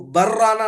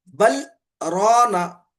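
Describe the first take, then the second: First: The two words run together without a pause. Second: The voice stops briefly after 'bal' without breathing.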